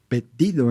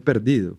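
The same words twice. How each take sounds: First: The r is dropped and the d doubled. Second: The r before the d is clearly sounded. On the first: "o perdido en vez de" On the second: "en vez de perdido"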